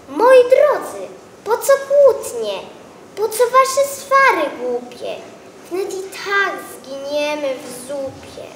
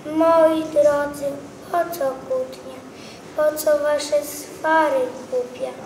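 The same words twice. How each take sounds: First: A cabbage begging the squabblers to stop; pleading cabbage. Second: Sad cabbage. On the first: Cabbage calls the quarrelling vegetables. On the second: Cabbage sadly asking the vegetables to stop arguing. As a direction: sigh it out like a weary cabbage. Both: Acted.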